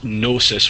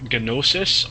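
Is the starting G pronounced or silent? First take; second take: silent; pronounced. First: The initial G is silent. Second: The initial G is pronounced.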